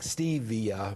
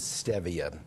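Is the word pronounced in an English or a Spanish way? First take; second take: English; Spanish. First: It is pronounced the way English spelling suggests. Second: It is pronounced with Spanish vowel sounds. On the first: The speaker calls it wrong. "because it looks like stevia" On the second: The speaker calls it right. "the correct pronunciation is stevia. It's Spanish"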